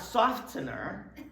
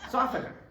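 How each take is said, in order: First: The T sound is pronounced in the middle. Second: The T sound is silent in the middle. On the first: The speaker calls it wrong. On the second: The speaker calls it right.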